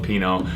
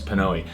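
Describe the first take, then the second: First: The name is pronounced like 'Pino'. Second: The name is pronounced like 'Pnoe'. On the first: The speaker calls it wrong. "heard me call it Pino, apparently I was wrong" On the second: The speaker calls it right. "It's Pnoe"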